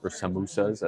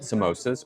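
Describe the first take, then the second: First: It is said with the Burmese pronunciation. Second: It is said with the usual English pronunciation.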